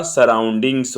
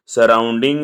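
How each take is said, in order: First: सराउंडिंग्स said with a final s; सराउंडिंग्स ending in ngs; giving सराउंडिंग्स as the right answer; correct plural form. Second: सराउंडिंग said with no final s; सराउंडिंग ending on the ng sound; marking सराउंडिंग as the wrong form; wrong singular form. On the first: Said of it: "सराउंडिंग्स होता है". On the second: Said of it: "सराउंडिंग नहीं होता". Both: Shown as a demonstration.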